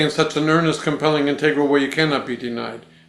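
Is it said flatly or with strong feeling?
flatly. It is said flatly, without much feeling.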